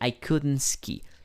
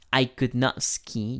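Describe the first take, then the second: First: Could and not are joined into one contracted word. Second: Could and not are said as two full words. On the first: "o simplemente la forma corta" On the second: "podemos poner de la forma full could not"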